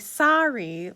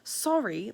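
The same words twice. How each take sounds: First: It is said in an American accent. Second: It is said in a British accent. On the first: "like Americans say" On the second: "like the British say"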